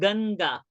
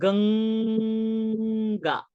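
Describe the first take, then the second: First: The middle nasal is a plain n sound. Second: The middle nasal is an ng sound. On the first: The speaker calls it wrong. "we are not saying Ganga" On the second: The speaker calls it right. "We are saying Ganga"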